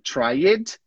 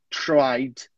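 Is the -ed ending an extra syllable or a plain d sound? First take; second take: extra syllable; plain d. First: The ending is said as an extra syllable. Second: The ending is a plain d sound. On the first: The speaker calls it wrong. "você tá falando tried" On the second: The speaker calls it right. "A gente não pronuncia que ele é em nenhuma delas"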